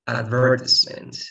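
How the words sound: It is said in a British English way. "that's the U K"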